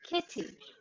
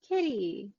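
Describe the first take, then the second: First: British accent; the T is a crisp T. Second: American accent; the T sounds like a D. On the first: "and then the British English accent" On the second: "with the American English accent first"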